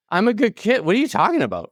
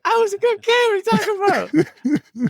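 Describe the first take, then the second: First: Higher, protesting he's innocent; baffled kid pleading he did nothing wrong; indignant disbelief. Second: Very high, hammed-up falsetto protest; squeaky mock outrage. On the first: Retold or imitated. Recalling the principal's warning, high indignant protest. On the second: Retelling the mix-up to friends, shrill hammed-up falsetto. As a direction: squeal it like a wronged kid. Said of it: "And I was just like".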